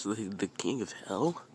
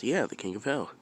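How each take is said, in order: First: The King of Hell with Hell rising in question; stammered "the, the", then Hell lifted in doubt; questioning echo. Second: Yeah lifted, King of Hell as a statement; matter-of-fact confirmation. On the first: Boy echoes the name as question. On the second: Sage confirms the name. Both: Acted.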